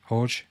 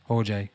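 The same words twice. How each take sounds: First: "Jorge" clipped to one syllable, HORJ with an h start; "Jorge" said short as horj; trying a name. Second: "Jorge" said as HOR-hay, two syllables with an h start; "Jorge" tried out slowly as hor-hay; trying a name. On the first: Reading a viewer's name, testing it as "Jorge" horj. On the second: Reading a viewer's name, testing it as "Jorge" hor-hay. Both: Shown as a demonstration. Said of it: "I'm gonna try my best to pronounce that".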